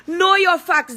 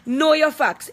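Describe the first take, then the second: First: KNOW hit hard and higher; stress on KNOW. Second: Said in the usual way. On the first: Real, not acted. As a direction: punch the word "know" as a warning. Warning people sharing her mugshot.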